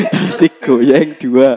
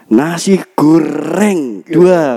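First: Slow, "goyeng" with y for r; "nasi goyeng" with r as y; says y for r. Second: Slow, "goreng" with a clear r; careful r. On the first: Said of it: "Kan pelo, pelat ta". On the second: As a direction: say "goreng" slowly, r rolled. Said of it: "Mas, pesen". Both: Retold or imitated.

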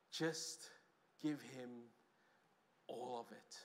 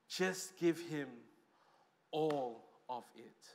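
First: Softer, dropping to almost nothing by the end; hushed plea. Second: Slow, each word laid down deliberately; slow emphatic repeat. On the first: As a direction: let the words sink away into a hush. Pleading Jesus's call, first take. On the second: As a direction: spell it out word by word, slowly. Same words repeated, slowed. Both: Pretend.

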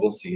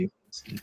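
First: Said in the usual way. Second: Breathy whispered repeat; whispered echo. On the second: Real, not acted. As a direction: whisper it back to yourself. Echoes own words in whisper.

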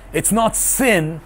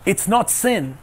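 First: "not" drawn out slowly and leaned on; slow right down and press on "not"; slow stress on not. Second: Said in the usual way. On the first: Shown as a demonstration. Preacher repeats to the congregation, slowly stressing "not". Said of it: "It's not sin (first take)". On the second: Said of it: "It's not sin (repeated slower)".

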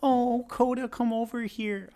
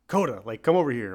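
First: Very high, drawn-out dog-owner coo; mock pet voice. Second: Plain-pitched call, a bit louder; normal yelled command. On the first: Mocking people who call their dog over, high-pitched pet voice. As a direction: imitate someone cooing to a dog, way up high. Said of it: "three tones higher than you talk to normal people". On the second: Retold or imitated. Owner calling the dog Coda over, normal yelled command. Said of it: "you normally yell".

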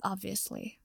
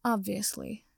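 First: "Obviously" dropped much softer, trailing down; more quietly. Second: "Obviously" echoed at normal level, holding back a laugh; verge of laughter. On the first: Potter adding to Neville, quieter and falling. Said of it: "he added more quietly". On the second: Neville teasing Potter back, near laughter. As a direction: repeat "Obviously" with a suppressed chuckle. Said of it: "on the verge of laughter". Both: A narrator's reading.

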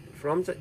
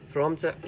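No difference in how they are said.

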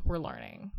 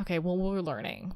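First: Much lower mock voice. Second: Said in the usual way. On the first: Repeats phrase in deep voice.

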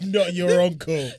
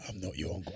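First: High, loud, slow punchline; "I'm not your uncle" shouted high and slow; loud mock punchline. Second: Low, soft "I'm not your uncle" in Idris's voice. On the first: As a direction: belt the punchline out. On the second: Retold or imitated. Quoting Idris.

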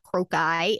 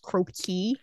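First: "croci" said KROH-kye; "croci" with a long i at the end; ending in "eye". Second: "croaky" said KROH-kee; "croaky" with a long e at the end. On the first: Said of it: "plural of crocus is not croci". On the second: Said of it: "It's pronounced croaky". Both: Shown as a demonstration.

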